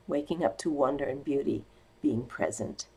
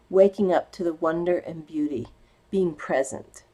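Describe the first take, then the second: First: Softer, lower restatement; a gentle echo of the phrase, softer and lower; softer repeat. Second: Said in the usual way. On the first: Shown as a demonstration. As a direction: let it settle, quieter and lower.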